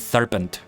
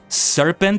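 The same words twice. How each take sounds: First: The word begins with a lisped th sound. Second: The word begins with a clear s sound. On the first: The speaker calls it wrong. "it sounds like I'm saying serpent" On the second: The speaker calls it right. "Instead of saying the word serpent"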